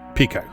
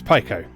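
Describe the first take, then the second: First: The first syllable sounds like pee. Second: The first syllable sounds like pie. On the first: The speaker calls it wrong. "for anyone who is still calling it Pico" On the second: The speaker calls it right. "I believe that Paico is actually the correct pronunciation because ... they made a big deal of the Pi symbol"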